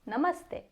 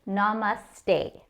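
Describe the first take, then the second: First: The final syllable ends in a short 'e' vowel. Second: The final syllable ends in a long 'ay' vowel. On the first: The speaker calls it right. "it is e like the e in end. So we are saying ste" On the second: The speaker calls it wrong. "What do we commonly hear from English speakers?"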